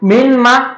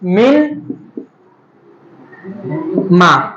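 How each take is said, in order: First: The n merges into a doubled nasal m. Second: The n is pronounced clearly before the m.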